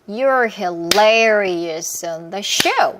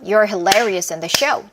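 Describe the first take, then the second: First: It is spoken at a moderate pace. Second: It is spoken a little faster.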